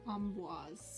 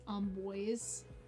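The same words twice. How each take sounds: First: The name is given a French pronunciation. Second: The name is given an English-style pronunciation. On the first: The speaker calls it right. "but the French pronunciation is preferred. So Amboise" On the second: The speaker calls it wrong. "Is sometimes anglicized as um Amboise"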